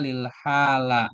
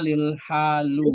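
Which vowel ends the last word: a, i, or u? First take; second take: a; u. First: The last word ends in an a vowel. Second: The last word ends in a u vowel. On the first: "Atau dibaca lil hala. Nggak boleh" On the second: "Nggak boleh dibaca lil halu"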